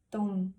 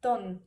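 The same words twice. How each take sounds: First: Said in the usual way. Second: "ton" with a short closed vowel instead of the ow of town; Scottish "ton", no diphthong; Glaswegian ton. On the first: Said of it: "dirían ton". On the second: Shown as a demonstration. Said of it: "O en el caso de town".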